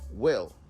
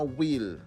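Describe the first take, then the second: First: The vowel sounds between e and i. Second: The vowel is a pure ee sound. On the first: The speaker calls it right. "esa I es como una mezcla entre una E y una I" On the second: The speaker calls it wrong. "no will"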